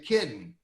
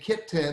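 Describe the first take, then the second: First: The T in the middle is dropped. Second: The T in the middle is clearly pronounced. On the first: "people who drop the, the T out of words like kitten" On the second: "instead of saying kitten"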